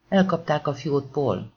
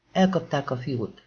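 First: „Elkapták” kiemelve, kissé hangosabban kiáltva; izgatott kiáltás. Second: Said in the usual way. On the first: Acted. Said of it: "kiáltott az operatőr a mikrofonjába". (az operatőr a mikrofonba kiált Paulnak, izgatottan) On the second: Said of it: "kiáltott az operatőr".

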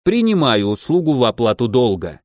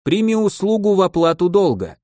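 First: Measured ceremonial acceptance; equally solemn. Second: High, sustained ceremonial declaration; solemn. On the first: Mage accepts a service as repayment, solemnly. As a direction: accept formally, stepping down to a close. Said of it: "не менее торжественно ответил". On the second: Giderika offers a service to repay debt, solemnly. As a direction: proclaim it like a formal oath. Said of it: "торжественно заявил". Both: A narrator's reading.

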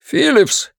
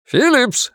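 First: High, desperate call into the radio; frantic shout. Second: High, desperate call repeated; frantic shout. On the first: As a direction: yell the name, panicking. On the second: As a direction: keep yelling the name, panicking. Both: Acted. Officer calling over radio.

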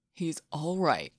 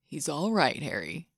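First: Slower and steadier than before, soothing; reassuring a panicked partner, slow and calm; slow, calm reassurance. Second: Calm and reassuring. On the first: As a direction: settle him gently with slow words. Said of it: "Malfoy said again". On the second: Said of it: "his voice calm and reassuring". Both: A narrator's reading.

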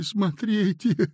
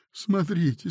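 First: Slow, stretched, pleading; a higher, slower plea; plaintive, drawn out. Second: Plaintive. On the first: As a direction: drag the word out helplessly. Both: A narrator's reading. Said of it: "жалобно сказал Синему".

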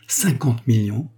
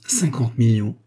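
First: "Cinquante millions?" drawn out slowly with a rising question; slow disbelieving echo. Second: A mild astonished exclamation on "Cinquante millions"; exclaimed in surprise. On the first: Salabert repeating the lawyer's sum to himself, slow and incredulous. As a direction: savour the sum slowly, as if tasting it. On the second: A former clerc hearing of fifty millions, a mild astonished cry. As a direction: blurt out the sum, lightly amazed. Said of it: "s'écria Salabert". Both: A narrator's reading.

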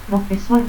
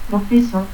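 First: Said in the usual way. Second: Profesor ending in a stop; altered final R. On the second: Shown as a demonstration. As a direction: say "profesot" without the R. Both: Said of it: "confusión de R y T al final".

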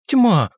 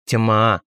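First: High, loud bitter cry; bitter exclamation. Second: Said in the usual way. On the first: A narrator's reading. Riita bursts out bitterly at the narrator, loud and high. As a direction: fling the word out in bitter frustration. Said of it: "вдруг с горечью воскликнул Риита". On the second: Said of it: "напомнил я".

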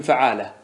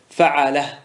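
First: فعالة with a long aa after the ain; long alif. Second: فعالة as fa'alah, all vowels short; alif dropped. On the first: Teacher naming the pattern to shorten, long alif in فعالة. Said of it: "احذف الألف من فعالة". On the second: Teacher demonstrating the shortened pattern, فعالة without its long alif. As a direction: say فعالة with a short a after the ain. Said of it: "لو حذفنا الألف من فعالة سيأتيك الوزن هكذا". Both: Shown as a demonstration.

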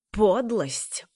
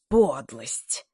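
First: Higher, louder outraged yelp on Подлость; shrieking beside himself. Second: Mild furious repeat. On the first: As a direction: shriek Подлость as if losing control. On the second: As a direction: lower but louder bitter repeat of подлость. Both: A narrator's reading. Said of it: "взвизгнул вне себя Нед".

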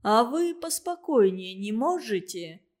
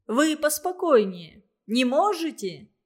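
First: Shout. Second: A louder, sharp demand for calm; shout. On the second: Official shouting at the student to calm down. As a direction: bark at him to calm down. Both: A narrator's reading. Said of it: "крикнул Карпухин".

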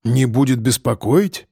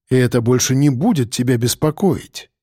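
First: «Не будет беспокоить?» asked back with the pitch rising on «будет»; a man asking the priest back in surprise, rising tune. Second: «будет беспокоить» said as a flat assurance, falling at the end; calm assurance that closes the matter; falling statement. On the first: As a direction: echo the words as a puzzled question. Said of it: "переспросил Михалыч". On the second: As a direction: state it as settled fact, voice dropping. Priest's assurance. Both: A narrator's reading.

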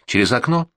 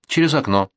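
First: Через окно? with a rising question on окно; окно lifted as a doubtful question; questioning tune. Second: Через окно said falling, stress on через; через stressed, окно falling to a close; flat statement tune. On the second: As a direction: confirm it firmly, falling. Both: Acted.

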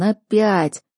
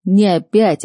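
First: Weary moaned word; groan. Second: Не опять, опять hit louder and sharper; stern retort.

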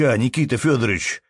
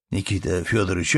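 First: A touch of tearful pleading, higher; mildly choked-up appeal; holding back tears. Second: Said in the usual way. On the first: Acted. Peasant near tears calling the manager's name, tearful. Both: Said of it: "едва удерживаясь от слёз".

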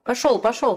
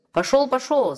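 First: Raised, pushing "Пошёл, пошёл!"; shouting away. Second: Raised, slamming "Пошёл, пошёл!" falling; final dismissal; shouting away. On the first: Smith shoves Chub away, shouting. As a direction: drive him off. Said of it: "кричал кузнец". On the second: Smith slams the door, shouting. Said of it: "закричал кузнец". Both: A narrator's reading.

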